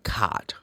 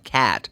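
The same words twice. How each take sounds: First: It is said with a British accent. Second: It is said with an American accent.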